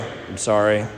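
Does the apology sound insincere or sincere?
insincere. The apology sounds flat and insincere. The apology is not really meant. The speaker calls it wrong.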